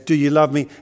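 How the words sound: It is asked in a firm, reminding tone. The speaker is reminding someone of their love. "as a reminder to someone"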